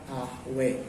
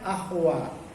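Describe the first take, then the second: First: The final vowel is tilted toward an e sound. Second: The final vowel is an open a sound. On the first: This follows another recognised reading tradition. "menurut Imam Warsy itu dibaca ahwe" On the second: This is the ordinary reading. "kita baca biasa saja ahwa"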